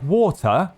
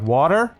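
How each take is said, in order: First: It is said in a careful British English accent. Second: It is said in an American accent. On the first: The listeners could not understand it. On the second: The listeners understood it.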